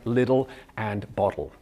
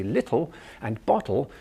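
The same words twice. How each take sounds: First: "little" and "bottle" with the T softened to a D; Canadian flapped T. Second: "little" and "bottle" with a clearly sounded T; crisp English T. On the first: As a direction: say "little" and "bottle" as "liddle" and "boddle". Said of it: "instead of it sounding like". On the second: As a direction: say "little" and "bottle" with the tongue tip forward, a true T. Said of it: "we're getting the T". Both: Shown as a demonstration.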